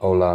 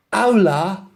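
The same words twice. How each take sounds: First: Said in the usual way. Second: Put-on high Spanish hello in a London accent; London-accented Spanglish. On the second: London girl trying Spanish on the driver, London accent. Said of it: "in the best Spanglish".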